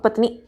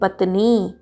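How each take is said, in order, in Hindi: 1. शब्द जल्दी बोला गया है। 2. शब्द धीरे बोला गया है।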